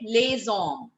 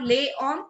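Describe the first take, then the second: First: The S is carried into hommes. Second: The S is dropped before hommes. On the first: The speaker calls it right. "we will carry forward the sound of S along with H" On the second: The speaker calls it wrong. "It's not les hommes"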